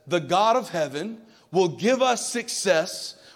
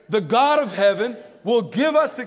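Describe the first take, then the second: First: It is read in a plain, calm way. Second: It is read loudly with energy and conviction.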